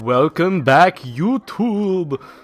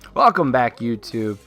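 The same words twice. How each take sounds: First: It is said in a put-on voice. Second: It is said in his normal voice.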